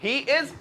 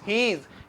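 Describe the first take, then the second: First: It is said as two separate full words. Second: It is joined into one short syllable. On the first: "ही इज को मिला के" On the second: "मिला के"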